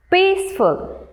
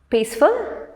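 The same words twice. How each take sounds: First: "Peaceful" as peace, ful, pitched high; broken into syllables. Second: Said in the usual way. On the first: Shown as a demonstration. Teacher having learners pronounce along, "Peaceful" high and split. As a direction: sound out "Peaceful" high, in two beats. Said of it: "break them into syllables". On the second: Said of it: "let's pronounce these words once".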